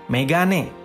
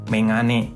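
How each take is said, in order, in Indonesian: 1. Bunyi g di tengah itu bunyi keras biasa. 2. Bunyi g di tengah itu bunyi sengau.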